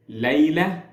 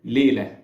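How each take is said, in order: First: Layla with the open Arabic "ay" as in "lay-la"; original Arabic pronunciation. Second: Layla in an Egyptian accent, flattened to "lay" as "le-la"; Egyptian Arabic accent. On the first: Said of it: "in the original Arabic". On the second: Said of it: "or in my accent". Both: Shown as a demonstration.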